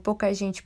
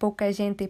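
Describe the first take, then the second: First: The t in gente sounds like ch. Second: The t in gente is a plain t. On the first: It imitates the sound of the train. "Por que esse tch, tch? Por causa do trem" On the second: The train-like effect of the poem is lost. "Se esse poema fosse lido em um local que a pronúncia do T fosse gente"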